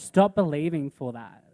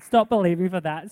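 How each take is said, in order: First: It is said in a stern, unhappy tone. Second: It is said in a cheerful, happy tone. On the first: The speaker calls it right. "I would say" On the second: The speaker calls it wrong. "I wouldn't say it so happily"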